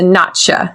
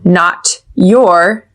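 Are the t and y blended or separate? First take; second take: blended; separate. First: The t and y blend into a ch sound. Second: The t and y are said separately.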